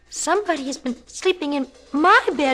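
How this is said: It is a small, high, tiny voice.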